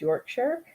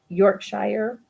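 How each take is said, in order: First: The ending is a short reduced 'sher' sound. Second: The ending is a full 'shire' sound. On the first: The speaker calls it right. "it's just sure" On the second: The speaker calls it wrong. "we tend to say Shire"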